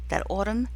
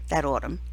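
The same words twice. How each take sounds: The two takes are said the same way.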